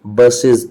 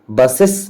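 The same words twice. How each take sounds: First: बसेस said bus-iz, ending in a z; bus-iz, short i and a voiced z on बसेस; correct pronunciation. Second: बसेस as bus-ess with an open e and a hard s; बसेस said bus-ess, the way not to say it; wrong pronunciation. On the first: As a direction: give the right way to say बसेस. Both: Shown as a demonstration. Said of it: "pronunciation इसका क्या होगा".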